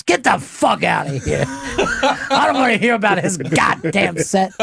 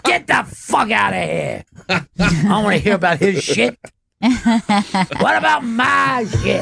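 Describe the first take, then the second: First: Keith's gruff brush-off. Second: Mock indignant shout, the last line slowed and pitched up; Keith's gruff brush-off. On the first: Retold or imitated. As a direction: imitate a comic waving off praise with a laugh. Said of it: "And he'll be like this". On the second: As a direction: play the jealous comic grabbing the spotlight. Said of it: "Just to".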